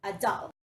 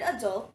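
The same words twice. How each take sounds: First: ADULT said as "a-DAL"; British pronunciation. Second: ADULT as "uh-DULT"; American pronunciation. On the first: Teacher models British ADULT for learners, open final vowel. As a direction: say "adult" with an open "ah" in the last syllable. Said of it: "in the British English, it is pronounced as". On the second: Teacher models American ADULT for learners, second syllable stressed. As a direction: say "adult" with a weak first vowel, weight on "dult". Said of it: "in American English is pronounced as". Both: Shown as a demonstration.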